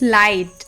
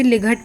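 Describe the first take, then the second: First: The gh is silent and the vowel is long. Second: The gh is pronounced as a hard g sound. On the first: The speaker calls it right. "But its लाइट" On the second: The speaker calls it wrong. "सोचो अगर इसे लिघट पढ़ते"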